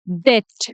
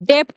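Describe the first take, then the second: First: No p sound is pronounced before the t. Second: A p sound is pronounced before the t. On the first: The speaker calls it right. "इसका सही pronunciation है डेट।" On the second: The speaker calls it wrong. "डेप्ट बोल देते हैं, जो कि गलत है।"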